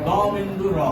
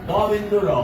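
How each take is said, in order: No difference in how they are said.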